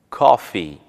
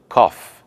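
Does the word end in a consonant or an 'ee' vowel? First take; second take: vowel; consonant. First: The word ends with a final 'ee' vowel. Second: The word ends on a consonant, without 'ee'. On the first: The speaker calls it right. "Precisamos do som de I" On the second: The speaker calls it wrong. "se dissermos cough, soa como cough"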